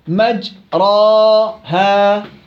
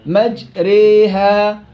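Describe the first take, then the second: First: The long vowel is a pure open a. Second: The long vowel is bent strongly toward ee. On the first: "الفتح مجراها، هذا فتح عكس الإمالة" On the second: "إمالة كبرى تكون أقرب إلى الياء"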